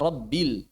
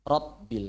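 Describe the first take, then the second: First: The doubled consonant sounds like a voiced b. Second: The doubled consonant sounds like a voiceless p. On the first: The speaker calls it right. "Mestinya rabbil" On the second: The speaker calls it wrong. "Mengubah menjadi pe"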